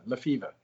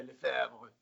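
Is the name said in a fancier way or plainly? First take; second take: plainly; fancier. First: The name is said plainly, like the word fever. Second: The name is said in a fancier, French-sounding way. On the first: This is how the name is really pronounced. "it really is pronounced like the sickness, fever" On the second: This version sounds more elegant. "It sounds much fancier if you say Lefebvre"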